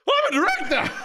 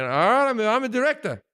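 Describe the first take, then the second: First: Very high mock-triumphant yell; all-out hammed-up final attempt; full passion. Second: Said in the usual way. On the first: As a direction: shout it like a proud declaration. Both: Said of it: "With passion".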